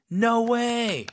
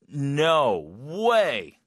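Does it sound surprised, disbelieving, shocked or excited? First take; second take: excited; shocked. First: It sounds excited. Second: It sounds shocked.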